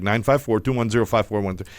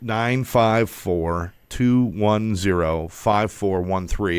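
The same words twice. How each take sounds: First: The number is read fast. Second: The number is read slowly.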